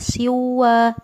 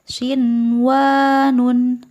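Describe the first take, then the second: First: The n sound before w is dropped. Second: The n sound before w is clearly heard. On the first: The speaker calls it wrong. "maka tidak dibaca siwa" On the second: The speaker calls it right. "tetap harus dibaca jelas"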